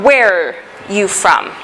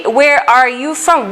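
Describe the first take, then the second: First: "Where you from" with "are" swallowed into "Where"; slow demo of contracted "Where're you from"; contracted question. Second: Said in the usual way. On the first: Shown as a demonstration. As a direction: run "Where" and "are" together as one word, "Where're". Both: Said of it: "here we can make it".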